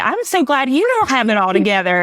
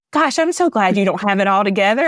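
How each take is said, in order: First: Laughing. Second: Said in the usual way. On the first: Retold or imitated. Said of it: "And I laughed and I was like".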